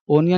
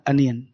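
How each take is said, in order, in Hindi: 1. शब्द 'oh' की आवाज़ से शुरू होता है। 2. शब्द 'uh' की आवाज़ से शुरू होता है।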